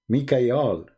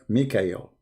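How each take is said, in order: First: The name ends with an 'al' sound. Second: The name ends with an 'el' sound. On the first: This is the ancient form of the name. The speaker calls it right. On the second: This is the later form of the name. The speaker calls it wrong.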